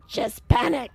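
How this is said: It is said in a growling demon voice.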